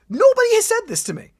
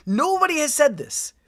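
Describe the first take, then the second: First: Much higher and louder, incredulous; nobody told me, really pushing it; outraged disbelief. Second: Said in the usual way. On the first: Real, not acted. To podcast co-host about missed lore, an outraged higher louder disbelief.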